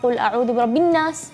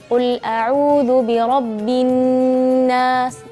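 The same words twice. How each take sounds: First: The doubled n is cut short without holding. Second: The doubled n is held for two beats. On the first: The speaker calls it wrong. "nggak boleh" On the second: The speaker calls it right. "harus ada kita kasih waktu yang khusus bagi huruf nun yang bertasydid"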